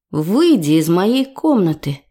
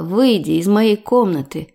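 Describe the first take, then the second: First: A hint of a sleepy rasp on "Выйди из моей комнаты", a little slow; lightly just-woken voice asking him out; a light touch of morning hoarseness; hoarse with sleep. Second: A mild, held-back "выйди" said through the teeth; understated restrained anger on "выйди из моей комнаты"; a touch of suppressed fury. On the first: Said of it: "хриплым от сна голосом". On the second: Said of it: "процедила я". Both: A narrator's reading.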